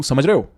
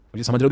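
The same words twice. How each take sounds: First: "समझ रहे हो?" louder with the end pushed out; "समझ रहे हो?" determined with a firm end; thrown-out ending. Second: Said in the usual way. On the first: Shown as a demonstration. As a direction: push "हो" forward, don't let it drop. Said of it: "but मैं बोलूँ". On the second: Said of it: "देखा मैंने जैसे पीछे लिया".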